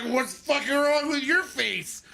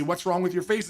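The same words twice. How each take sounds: First: Put-on high, slow drunk comeback; drunk indignant retort. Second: Said in the usual way. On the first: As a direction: toss it back, offended and slurring. Drunk retort throwing question back.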